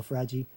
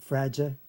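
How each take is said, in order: First: "fragi" as fra-jee, ending in ee; alternative variant. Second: "fragia" as fra-juh, ending in uh; first variant. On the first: Teacher giving the other option, ending jee. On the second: Teacher giving one option for syllables five and six, ending juh. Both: Shown as a demonstration. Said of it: "okay, or fragi".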